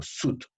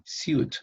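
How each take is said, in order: First: "suit" as soot with long oo; "suit" without y-glide. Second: "suit" as syoot, rising; "suit" with a y-glide. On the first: Teacher showing how they always say it, "suit" as soot. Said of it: "esta palabra yo siempre le digo suit". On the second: Teacher showing the other accepted form, "suit" as syoot. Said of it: "debo pronunciar también suit". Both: Shown as a demonstration.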